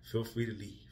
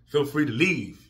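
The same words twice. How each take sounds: First: Said in the usual way. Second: Slow, pointed, each word hit; firm dismissal. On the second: Real, not acted. To viewers who won't watch him cry, firm and slow. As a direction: Feel free to leave slowed and punched. Repeats dismissal, then firmly.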